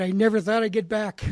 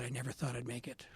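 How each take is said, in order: First: Louder, higher, NEVER pressed hard; emphatic quote. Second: Softer, lower, a humble murmur of the father's words; quiet humble quote. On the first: Father at the AA meeting, emphatic and moved. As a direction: push the line out with feeling. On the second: Father receiving his coin, quiet and humbled. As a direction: let it fall away, a touch humbled. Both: Retold or imitated. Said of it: "He said".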